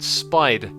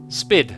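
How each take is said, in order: First: The vowel is a long 'eye' sound. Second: The vowel is a short 'i' sound. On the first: The speaker calls it wrong. "I said spied, didn't I?" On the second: The speaker calls it right. "It rhymes with did"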